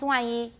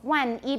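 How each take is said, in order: First: The final n blends into the following glide. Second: The final n is fully pronounced before the glide. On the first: "becomes 万一. That's an allophonic rule" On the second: "So 万一 becomes"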